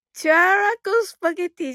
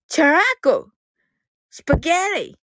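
First: チュアラコスパゲティ with every kana sounded separately; plain Japanese reading of チュアラコスパゲティ, "chu-a-ra-ko"; wrong pronunciation. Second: チュアラコ squeezed to "chu-raako", スパゲティ as "spa-gyarii"; newly learnt pronunciation. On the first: Student telling everyone what it isn't, チュアラコスパゲティ in katakana sounds. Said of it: "じゃないのですよ". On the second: Student showing listeners what she learnt, チュアラコ スパゲティ in English-style sounds. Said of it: "でした". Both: Shown as a demonstration.

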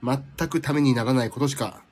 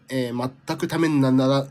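First: Said in the usual way. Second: "全くためになら-" slurred and cut off mid-word; tongue-tied stumble. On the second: Real, not acted. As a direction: trip over "ためになら" and stop short. (舌がもつれて「全くためになら-」で詰まる) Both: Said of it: "口が回らない".

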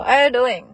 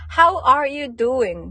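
First: "How are you doing" squashed to "a-ya-doin"; quick, loud "How are you doing" as one word; run-together local form. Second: "How are you doing" slow, every word separate; loud, high, drawn-out "How are you doing" with the H; full slow form. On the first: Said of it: "もう言わずに". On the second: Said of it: "て言ってるんですけど". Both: Shown as a demonstration.

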